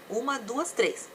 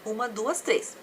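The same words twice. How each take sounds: The two takes are said the same way.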